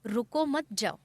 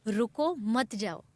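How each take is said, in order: First: रुको मत together, then जाओ set apart; pause after मत. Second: रुको set apart, then मत जाओ together; pause after रुको. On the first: Speaker showing the misheard plea, pause after मत. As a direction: join मत to रुको, break before जाओ. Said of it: "और उन्होंने सुना". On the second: Speaker quoting a plea to stay, pause after रुको. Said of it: "कि हमने कहा". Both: Shown as a demonstration.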